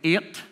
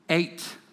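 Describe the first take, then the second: First: It is said in a Northern Irish accent. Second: It is said in a London accent.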